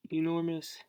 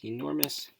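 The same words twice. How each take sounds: First: "enormous" repeated higher, in mock disbelief; amazed at how big the sticker came out; amused surprise. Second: Said in the usual way. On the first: Real, not acted. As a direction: echo "enormous" as if startled by the size. Reacts to oversized sticker.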